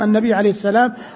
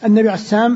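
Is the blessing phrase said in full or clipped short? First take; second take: full; clipped. First: Every syllable of the blessing is said clearly. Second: The blessing is slurred into one short word. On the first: The speaker calls it right. "أن ينطق المسلم بالصلاة والسلام عليه صحيحة واضحة" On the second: The speaker calls it wrong. "وإن من الخطأ الواضح الجلي أن يبخس المسلم نطقها"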